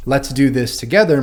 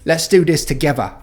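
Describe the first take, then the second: First: Said in the usual way. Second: Cockney accent, a bit higher, "together" said as "togevah"; Cockney demo, turn the TH in "together" into a V. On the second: Shown as a demonstration. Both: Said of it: "pronounce it as a V".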